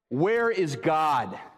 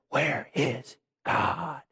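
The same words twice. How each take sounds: First: It is said at normal speaking volume. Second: It is said in a hushed whisper.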